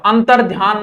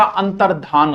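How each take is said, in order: First: अंतर ध्यान with a y after ध; wrong form अंतर ध्यान. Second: अंतर्धान with plain dhaan, no y; correct form अंतर्धान. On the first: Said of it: "नहीं होता". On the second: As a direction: say अंतर्धान, ध straight into long aa. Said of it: "अंतर ध्यान नहीं होता". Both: Shown as a demonstration.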